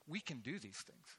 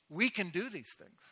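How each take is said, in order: First: Said in the usual way. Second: Higher, stronger repeat of We can do these things; insistent echo; rousing repeat. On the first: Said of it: "People, we can do these things". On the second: Real, not acted. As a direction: lift it for the crowd.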